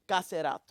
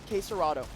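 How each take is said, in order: First: It is said with a Portuguese-style pronunciation. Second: It is said with an English-style pronunciation. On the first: The speaker calls it right. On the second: The speaker calls it wrong.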